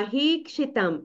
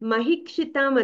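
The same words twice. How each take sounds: First: The vowel after m-h is long. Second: The vowel after m-h is short. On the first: The speaker calls it right. "ఆ హీకి దీర్ఘం ఉంది" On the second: The speaker calls it wrong. "మహీక్షితాం అన్నావు"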